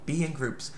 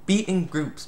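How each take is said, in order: First: Much softer be in groups; softer repeat. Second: Said in the usual way. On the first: Shown as a demonstration. Reviewer repeating advice to viewers, much softer. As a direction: repeat it under your breath. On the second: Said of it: "you know?".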